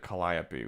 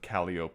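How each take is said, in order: First: It is said like the Greek muse's name. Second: It is said the local street-name way. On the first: This is the name of the Greek character. "No one pronounces it Calliope" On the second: This is how locals say the street name. "We pronounce it Calliope Street"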